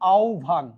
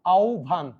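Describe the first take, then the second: The two takes are said the same way.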